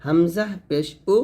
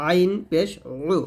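First: উ with a clean glottal start; light hamza. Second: উ squeezed in mid-throat; pressed ain. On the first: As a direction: say উ open, no squeeze. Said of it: "কণ্ঠনালীর শুরু থেকে". (হালকা করে উ) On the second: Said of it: "চাপ দিয়ে". (চাপ দিয়ে উ) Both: Shown as a demonstration.

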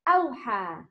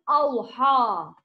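First: أوحى with a light ح and a light alif; teacher models أوحى; correct أوحى. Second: أوحى with a heavy, dark vowel; teacher shows the wrong أوحى. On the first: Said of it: "Alif and ha is light letters". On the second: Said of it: "not أوحى". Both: Shown as a demonstration.

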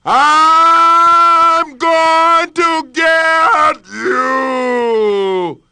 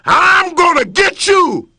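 First: Very slow, ringing echo of a yell; the well echoing the threat back. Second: Loud, high threatening yell; lion threatening his reflection, yelling. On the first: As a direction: let it boom back from the depths. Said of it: "it yelled directly back". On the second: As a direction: bark the threat. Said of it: "he yelled at it". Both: Acted.

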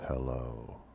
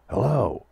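First: Soft, hesitant hello; a shy, quiet "hello"; timid hello. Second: Big, high, bold "Hello!"; loud hello. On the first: Greeting the pirate captain Falcon, shyly and softly. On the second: Greeting the pirate captain Falcon, boldly and loudly. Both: Shown as a demonstration.

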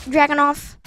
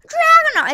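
First: Said in the usual way. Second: "Dragon off" swooping high and loud; Pokemon-style name call. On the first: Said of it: "that's how I think you say it". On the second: Shown as a demonstration. Gamer joking the gun sounds like a Pokemon, high exaggerated name call. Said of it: "It sounds like a Pokemon".

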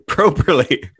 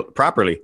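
First: "Properly" with a long OH in the first syllable, like "prope"; mock-proper pronunciation. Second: Said in the usual way. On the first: Shown as a demonstration. Amused comic showing off how to say it, mock-proper PROPE-er-lee for "Properly". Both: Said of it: "learn to say it proper-, properly".

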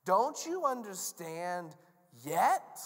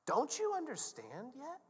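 First: Slow, firm, forceful question; drawn-out stern demand, louder at the end; exasperated Jesus. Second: High, slow, strained question; drawn-out exasperated appeal; incredulous Jesus. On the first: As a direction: spell it out word by word. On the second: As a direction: plead in disbelief, without raising the volume. Jesus pleads with the disciples. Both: Acted.

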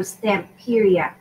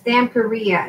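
First: Said in the usual way. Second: First "Stamperia" as stam-peh-REE-ah; Spanish pronunciation. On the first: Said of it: "instead of Stamperia". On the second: Shown as a demonstration. Crafter showing viewers the brand's name, Spanish pronunciation. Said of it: "I'm pronouncing it in Spanish".

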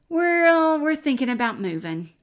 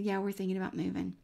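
First: Much higher and louder, bursting out; blurted announcement. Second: Said in the usual way. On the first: Retold or imitated. Telling the neighbor daughters about the move, loud and high.

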